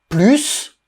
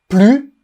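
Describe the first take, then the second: First: The final s is pronounced as s. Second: The final s is silent.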